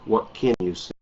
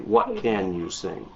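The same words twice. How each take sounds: First: The word can is weakened and quick. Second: The word can is said fully and clearly. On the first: This is rapid everyday native speech. "you're going to hear native English speakers say" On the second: This is careful speech. "Careful speakers say"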